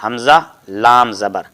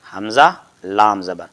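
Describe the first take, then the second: First: Slowly spelled, each letter name drawn out; teacher slowing down to show حمزہ لام زبر; slow demo spelling. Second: Said in the usual way. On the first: Shown as a demonstration. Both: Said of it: "یعنی".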